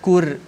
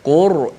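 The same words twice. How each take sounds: First: The r sound is light and thin. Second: The r sound is heavy and thick. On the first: The speaker calls it wrong. "jangan kita baca Quran Qur, tak boleh. Kalau Qur jadi nipis" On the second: The speaker calls it right. "Ra tebal macam mana? ... dibaca tebal"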